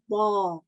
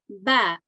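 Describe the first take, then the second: First: The sound is heavy, with rounded lips. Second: The sound is light, with spread lips. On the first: The speaker calls it wrong. "I won't say ba" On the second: The speaker calls it right. "if I was to pronounce this as a light letter, I'll say ba"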